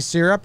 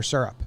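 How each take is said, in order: First: "syrup" with a short SIH first vowel, "SIH-rup"; SEER-up pronunciation. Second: "syrup" rhyming with "stirrup" said as "stur-up"; SUR-up pronunciation. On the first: Asking the co-host which way they say it, SEER-up pronunciation. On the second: Offering the co-host the other option, SUR-up pronunciation. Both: Shown as a demonstration. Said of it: "You say syrup or syrup?".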